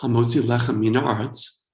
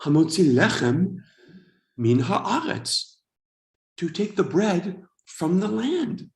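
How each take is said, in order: First: Put-on routine Hebrew blessing in an American accent; bad American accent. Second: Slow, phrase-by-phrase blessing as it sinks in; dawning realization. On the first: American at a Shabbat dinner saying the usual blessing, bad American accent. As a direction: rattle off the blessing with American vowels. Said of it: "in my bad American accent". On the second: Retold or imitated. Immigrant finally understanding the Hebrew blessing, dawning realization. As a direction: recite it slowly, discovering each word's meaning. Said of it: "suddenly it hits me".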